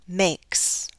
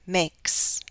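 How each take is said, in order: Both takes have the same delivery.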